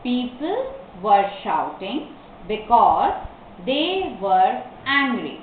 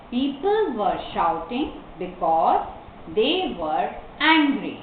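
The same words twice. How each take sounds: First: Slow dictation in short pieces; word-by-word. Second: Slow answer in long phrases; model reading. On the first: Teacher repeats the answer for learners, word by word. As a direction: stop after every word or two. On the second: Teacher gives the class the answer, slow reading. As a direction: pause before "they" and "angry". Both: Shown as a demonstration.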